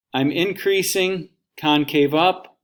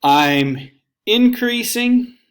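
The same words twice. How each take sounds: First: Said in the usual way. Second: Slow, much higher and louder stretched increasing; drawn-out emphasis. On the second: Shown as a demonstration. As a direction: stretch out increasing high and loud to show the rise.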